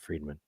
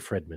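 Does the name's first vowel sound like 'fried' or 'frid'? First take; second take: fried; frid. First: The first syllable sounds like 'freed'. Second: The first syllable sounds like 'frid'. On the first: The speaker calls it wrong. "not Friedman" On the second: The speaker calls it right. "like to say Fridman"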